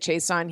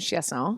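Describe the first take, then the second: First: The name is pronounced the English way. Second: The name is pronounced the French way. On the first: "I guess, the English version" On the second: "that's how you say it in French"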